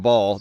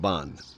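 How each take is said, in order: First: The word ends with an L sound. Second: The word ends with an N sound. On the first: "nobody has a ball" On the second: "They have a bond"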